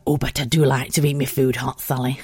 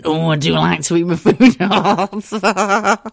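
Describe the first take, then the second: First: A hint of a prim mum; mild mum voice, lower; lightly voiced mum. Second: Slow, louder, laughing comic posh lady; Little Britain character voice. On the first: Mum telling daughter Sally she likes food hot, lightly voiced. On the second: Retold or imitated. Daughter mocking mum as a Little Britain character, slow and laughing. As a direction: ham up mum like a sketch show character. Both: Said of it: "a character from Little Britain".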